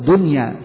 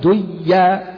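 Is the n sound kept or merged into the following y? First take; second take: kept; merged. First: The n is clearly kept before the y. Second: The n is merged into the following y. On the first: The speaker calls it right. "مثل الدنيا فإنها لا تدغم" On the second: The speaker calls it wrong. "لا تقول ديا"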